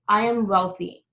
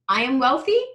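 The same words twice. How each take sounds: First: The pitch falls at the end. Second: The pitch rises at the end. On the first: It sounds like a command. The speaker calls it right. "So your tonality will go down at the end" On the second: It sounds like a question. The speaker calls it wrong. "You see how it goes up and it sounds like a question?"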